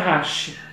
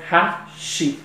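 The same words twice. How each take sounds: First: The word is said the Japanese way. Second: The word is said the Brazilian Portuguese way. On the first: This is how the word is said in Japan. "no Japão se chama hashi" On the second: This is how the word is said in Brazil. "aqui a gente pronuncia hashi"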